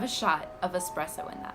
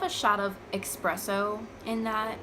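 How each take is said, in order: First: The word begins with an 'ess' sound. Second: The word begins with an 'ex' sound. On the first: The speaker calls it right. "it's espresso, but yes" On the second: The speaker calls it wrong. "it's a pet peeve for me when people say"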